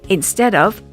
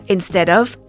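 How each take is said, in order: The two takes are said the same way.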